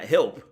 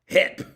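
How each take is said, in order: First: The word is said with the L sound. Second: The word is said without the L sound. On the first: "Not help" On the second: "H E P"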